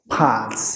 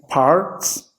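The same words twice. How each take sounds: First: It is said in a British accent. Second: It is said in an American accent. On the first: "in British" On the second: "in American"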